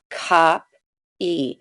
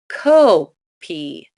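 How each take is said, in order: First: The first vowel sound is short. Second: The first vowel sound is long. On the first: The speaker calls it right. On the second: The speaker calls it wrong.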